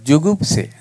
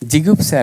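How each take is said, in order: First: The first vowel is 'u', as in 'ju'. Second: The first vowel is 'i', as in 'ji'. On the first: The speaker calls it right. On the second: The speaker calls it wrong. "ಜಿಗುಪ್ಸೆ ಅಲ್ಲ"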